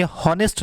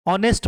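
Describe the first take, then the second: First: हॉनेस्ट with an audible H; H wrongly sounded. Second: ऑनेस्ट starting on the vowel; silent H. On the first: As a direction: say हॉनेस्ट as hon-est. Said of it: "नहीं पढ़ेंगे". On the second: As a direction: say ऑनेस्ट as on-est, no H. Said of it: "पढ़ेंगे". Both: Shown as a demonstration.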